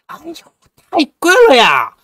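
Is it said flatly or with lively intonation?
lively. It is said with lively, haggling intonation.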